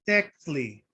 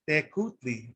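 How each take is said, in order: First: The k runs straight into tli. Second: A u vowel follows the k sound. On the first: This is the modern Huasteca variant of the word. "in the modern Nahuatl variant of the Huasteca region ... they say" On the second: This is the Spanish-style reading of the word. "If you pronounce it like Spanish"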